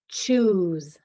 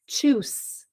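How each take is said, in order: First: The final sound is a buzzing z. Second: The final sound is a hissing s. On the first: The speaker calls it right. "Let's try the other sound. Z" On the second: The speaker calls it wrong. "let's try the S like sun first"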